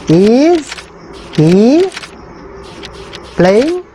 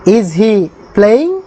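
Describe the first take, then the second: First: Each word set apart by long pauses; Is, then he, then playing, each on its own. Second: The whole question drawn out very slowly; slow dictation. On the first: Teacher dictates the question one word at a time. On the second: Teacher reads the English question very slowly to the class. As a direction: say it slowly in one breath. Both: Shown as a demonstration. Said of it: "teacher dictating English translation".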